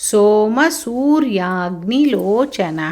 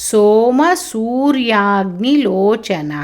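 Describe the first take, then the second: No difference in how they are said.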